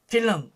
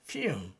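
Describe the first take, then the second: First: The L is said as a Korean-style syllable sound. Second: The L is said as a soft flowing sound. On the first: The speaker calls it wrong. "영어에서는 또 그렇게 발음하지 않습니다" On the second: The speaker calls it right. "이 L 발음이 이제 이 반설음으로 돼야 되는 것이죠"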